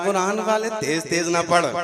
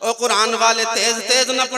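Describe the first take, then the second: First: It is said at normal volume. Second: It is said loudly.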